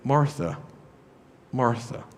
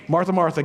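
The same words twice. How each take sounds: First: The name is said gently and warmly. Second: The name is called out sternly, like a reprimand. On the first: The speaker is reaching out with care. The speaker calls it right. "Jesus is talking to her compassionately" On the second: The person is in trouble. The speaker calls it wrong. "Jesus is not going, hey"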